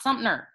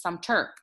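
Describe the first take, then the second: First: Sumter mispronounced as SUMP-ner; mistaken extra N. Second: Sumter as SUM-ter, with no N; corrected pronunciation. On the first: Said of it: "It's not Sumter". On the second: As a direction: say Sumter properly, a clear T and no N. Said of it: "It's Sumter". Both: Shown as a demonstration.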